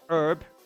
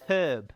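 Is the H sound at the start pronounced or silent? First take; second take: silent; pronounced. First: The word begins without any H sound. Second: The word begins with an audible H sound. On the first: The speaker calls it wrong. "Not herb" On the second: The speaker calls it right. "You gotta use the H"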